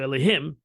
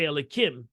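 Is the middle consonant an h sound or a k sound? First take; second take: h; k. First: The middle consonant is an h sound. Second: The middle consonant is a k sound. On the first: The holy name itself is spoken. "I can say it now just to teach you" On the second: A substitute form avoids speaking the holy name. "you change the hey to a kuf"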